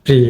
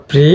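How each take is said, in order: First: প্রি with a short i; quick short "pri". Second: প্রি with a long ee; held "preee". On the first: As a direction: keep the vowel of প্রি brief, "pri". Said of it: "এটা হিস্যিকার হবে". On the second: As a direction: draw out the vowel of প্রি as "pree". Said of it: "এটা দীর্ঘিকার হবে". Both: Shown as a demonstration.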